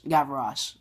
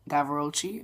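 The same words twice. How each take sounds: First: Gavroche said "gav-uh-rosh" with a settled fall; trying the name. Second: Gavroche said "gav-er-oh-chee" with a rising question; unsure pronunciation. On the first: Reviewer testing the French name, a firmer second try. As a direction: say "Gavroche" as three syllables, "gav-uh-rosh", stating it. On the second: Reviewer doubting the actor's name, another questioning try. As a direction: end "Gavroche" on a soft "chee", asking. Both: Real, not acted. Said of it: "I don't know how to say it".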